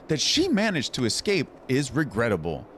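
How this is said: It is read in a put-on character voice.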